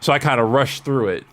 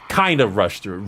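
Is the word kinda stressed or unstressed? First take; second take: unstressed; stressed. First: The word kinda is not specially stressed. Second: The word kinda is strongly stressed.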